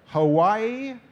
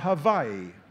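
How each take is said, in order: First: The middle consonant is a W sound. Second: The middle consonant is a V sound.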